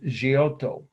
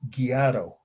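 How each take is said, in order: First: The name is said with Italian pronunciation. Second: The name is said with Americanized pronunciation. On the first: The speaker calls it right. "is how the Italians would pronounce it" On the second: The speaker calls it wrong. "as my Indiana aunt, my late aunt, used to mispronounce it"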